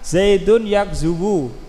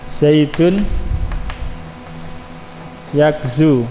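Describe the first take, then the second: First: The verb ends with an added u vowel. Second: The verb ends without an added vowel. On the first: The speaker calls it wrong. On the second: The speaker calls it right.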